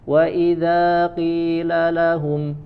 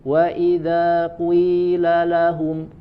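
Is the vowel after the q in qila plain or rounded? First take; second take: plain; rounded. First: The vowel after q is a plain i. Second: The vowel after q starts rounded toward u. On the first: "qila biasa" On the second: "ada ki-nya seperti dibaca dengan dhammah dulu"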